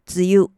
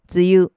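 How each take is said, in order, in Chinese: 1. 这个词读的是日语训读。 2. 这个词读的是日语训读。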